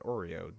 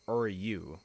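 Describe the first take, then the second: First: The name sounds like the cookie, Oreo. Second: The name ends in a yu sound, Oryu. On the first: The speaker calls it wrong. "That is not how you say it" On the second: The speaker calls it right. "That's probably it"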